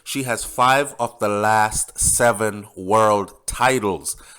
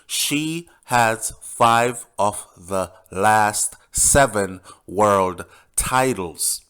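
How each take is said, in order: First: It is said at normal speed. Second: It is said slowly.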